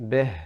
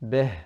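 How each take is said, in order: First: The vowel is open, mixed toward a. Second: The same.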